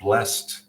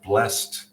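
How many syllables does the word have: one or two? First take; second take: one; one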